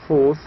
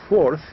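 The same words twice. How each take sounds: First: The R sound is dropped, New York style. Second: The R sound is clearly pronounced.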